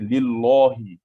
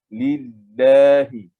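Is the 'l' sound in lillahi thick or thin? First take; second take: thick; thin. First: The l sound is heavy and thick. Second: The l sound is light and thin. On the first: The speaker calls it wrong. "Tidak kita baca lillahi" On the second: The speaker calls it right. "Kita baca dia dengan lillahi"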